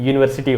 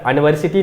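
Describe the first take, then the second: First: The word begins with a 'y' sound. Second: The word begins with a plain vowel sound. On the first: The speaker calls it right. "इसका उच्चारण यूनिवर्सिटी होता है" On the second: The speaker calls it wrong. "इसका उच्चारण यूनिवर्सिटी नहीं होता"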